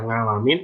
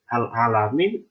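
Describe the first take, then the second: First: The second part starts with an ng sound. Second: The second part starts with a glottal stop. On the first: It has no meaning. "kalau kita baca ngalamin itu nggak ada artinya" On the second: It means the sick people. "kalau jadi hamzah"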